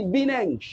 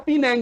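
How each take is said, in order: First: "Bineng" with B for the P of Penang; P turned to B. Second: Said in the usual way. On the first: Shown as a demonstration. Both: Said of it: "Fa jadi ba".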